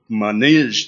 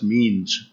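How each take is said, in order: First: The name is said with two syllables. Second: The name is said with one syllable. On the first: The speaker calls it right. "They say it's pronounced Manij" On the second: The speaker calls it wrong. "you probably look at it and say, oh, that's means"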